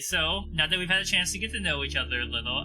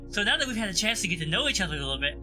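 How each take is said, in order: First: It is said in the speaker's natural voice. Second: It is said in a put-on character voice.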